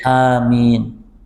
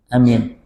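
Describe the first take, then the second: First: Both vowels are drawn out long. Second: The vowels are kept short. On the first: "Yang kedua panjang di mad dua-duanya" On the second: "Yang pertama pendek saja"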